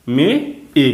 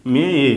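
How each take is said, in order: First: "মে", pause, "এ", each sound separate; syllable by syllable. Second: "মে এ" blended with no pause between; sounds joined. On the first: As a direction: sound out "মে" and "এ" apart for learners. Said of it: "মানে এটা ধরবো এ". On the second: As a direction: run "মে এ" together as one word. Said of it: "অন্তস্থ একার কি হয়". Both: Shown as a demonstration.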